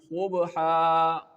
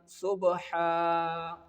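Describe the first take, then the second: First: The s sound is thick and heavy. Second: The s sound is thin and light. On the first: The speaker calls it wrong. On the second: The speaker calls it right.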